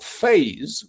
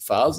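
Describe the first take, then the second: First: It is pronounced the English way. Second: It is pronounced the French way. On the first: "which is what I call it, because I'm English" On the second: "the French will pronounce it"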